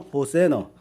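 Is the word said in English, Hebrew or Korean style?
English. It is said with reduced vowels, ho-se-neo. This form is further from the original language. "영어에서는 호세너"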